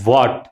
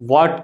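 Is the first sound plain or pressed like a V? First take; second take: pressed; plain. First: The first sound is pressed, close to a V. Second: The first sound is a plain, unpressed W. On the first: The speaker calls it right. "కొంచెం ఒత్తి పలకాలి" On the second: The speaker calls it wrong. "వాట్ కాదు"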